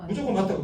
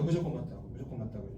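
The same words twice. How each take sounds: First: Said in the usual way. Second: 무조건 said much softer and lower, fading out; fading repeat. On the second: Shown as a demonstration. Lecturer to audience, repeating the rule while fading. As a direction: let 무조건 맞다고 die away to a murmur. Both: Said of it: "무조건 뭐예요?".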